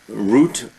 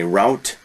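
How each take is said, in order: First: It is said the non-American way. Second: It is said the common American way.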